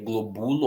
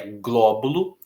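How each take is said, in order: First: The stress is not on the first syllable. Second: The stress is on the first syllable. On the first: The speaker calls it wrong. "senão ficaria globulo" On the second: The speaker calls it right. "então é o gló"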